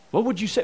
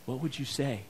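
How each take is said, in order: First: Said in the usual way. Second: Soft, inward question, nearly to oneself; quiet question. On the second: Shown as a demonstration. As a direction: let it land softly before repeating.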